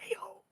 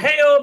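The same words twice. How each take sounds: First: It is said in a breathy whisper. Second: It is said in a full, voiced tone.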